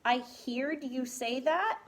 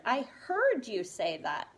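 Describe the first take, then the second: First: "heard" said as "heered", questioning rise; wrong pronunciation. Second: "heard" said as "herd", settled fall; correct pronunciation. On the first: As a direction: say "heard" with a long ee, like "hear". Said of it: "No. This changes it to heard". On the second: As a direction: say "heard" to rhyme with "bird". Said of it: "This changes it to heard". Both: Shown as a demonstration.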